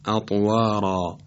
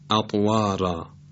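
First: The r and following vowel sound heavy and thick. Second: The r and following vowel sound light and thin. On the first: The speaker calls it right. "باید تفخیم بشه به این ترتیب" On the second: The speaker calls it wrong. "اگه ترقیق بکنیم راهش رو باید بگیم"

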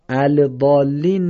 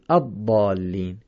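First: The L of the article is pronounced. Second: The L merges into the doubled consonant. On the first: The speaker calls it wrong. "ال ضالین نمیگیم" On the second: The speaker calls it right. "چرا این لام رو نخوندیم؟ چون بعدش تشدیده"

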